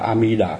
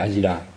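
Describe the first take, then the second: First: The second syllable begins with an m sound. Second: The second syllable begins with a d sound. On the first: This follows the original Sanskrit name. The speaker calls it right. "là đúng là A-mi-đà" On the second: This is the customary Vietnamese reading. The speaker calls it wrong. "chứ không phải A-di-đà"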